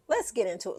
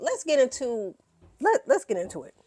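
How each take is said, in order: First: Whisper. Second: Loud hype. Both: Shown as a demonstration.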